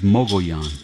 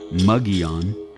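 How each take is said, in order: First: The name is said as Mogollon. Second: The name sounds like Mugion, with an oo vowel. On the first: The speaker calls it right. "Its true Apache pronunciation is Mogollon" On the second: The speaker calls it wrong. "pronounce it either Mugion or Mogion. That is wrong also"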